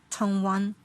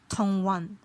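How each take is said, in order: No difference in how they are said.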